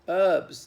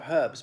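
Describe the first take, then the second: First: The word begins with no H sound. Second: The word begins with an audible H sound. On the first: This is how American speakers say it. "in the United States they're pronounced herbs. The H is silent" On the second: This is how British speakers say it. "We have herbs"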